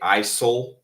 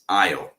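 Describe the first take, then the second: First: The S sound is pronounced in the middle. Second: The S is silent, with no S sound. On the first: The speaker calls it wrong. "Many people pronounce the S. They say isol" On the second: The speaker calls it right. "The pronunciation of this word is aisle"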